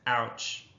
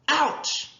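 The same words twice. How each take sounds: First: The word is said flatly without expression. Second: The word is said with lively expression. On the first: The speaker calls it wrong. "instead of" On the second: The speaker calls it right. "I was sure to use expression"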